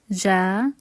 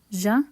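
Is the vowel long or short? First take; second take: long; short. First: The vowel is held long. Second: The vowel is cut short. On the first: "practice pronunciation with the short and long vowels" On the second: "And with the short vowels"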